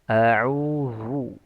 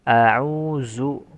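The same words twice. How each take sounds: First: The middle consonant is a thick, emphatic dh. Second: The middle consonant is a buzzing z sound. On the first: "itu terlalu tebal" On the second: "Atau menjadi zai"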